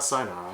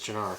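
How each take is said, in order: First: The word begins with an s sound. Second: The word begins with a ch sound. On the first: The speaker calls it wrong. "It's not Sinar" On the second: The speaker calls it right. "I'm pretty sure it's Chinar"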